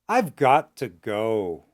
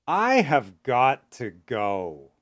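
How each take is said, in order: First: The phrase is spoken at medium pace, partly contracted. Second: The phrase is spoken slowly with full words.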